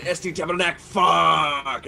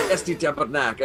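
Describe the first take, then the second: First: Québécois swearing that builds to a louder English curse; mock-angry outburst, punch the final curse; pissed off. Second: Mild Québécois swearing; a little mad. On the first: Warning friends how Quebecers swear, truly pissed. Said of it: "you know they're pissed". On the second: Warning friends how Quebecers swear, only a little mad. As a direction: curse in French without real anger. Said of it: "they're not really that mad". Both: Shown as a demonstration.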